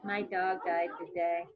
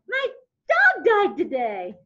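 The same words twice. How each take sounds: First: It is said in a sad, quiet tone. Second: It is said in a cheerful, upbeat tone.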